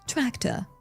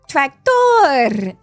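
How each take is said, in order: First: The final R is said without rolling. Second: The final R is rolled with the tongue. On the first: "I don't roll my tongue" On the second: "That would be like"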